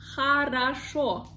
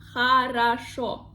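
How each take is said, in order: The two takes are said the same way.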